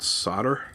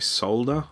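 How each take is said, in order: First: The word is said a non-Australian way. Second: The word is said the Australian way. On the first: "not solder" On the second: "I'm from Australia, so we say solder"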